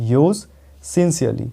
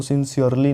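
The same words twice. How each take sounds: First: "sincerely" with no r sound, sin-see-li; silent r. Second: "sincerely" with the r sounded; wrong pronunciation. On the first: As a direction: drop the r in "sincerely". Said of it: "यहाँ भी आर silent है". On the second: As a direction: demonstrate the mistake, r sounded. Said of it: "इसको sincerely नहीं बोलना है". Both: Shown as a demonstration.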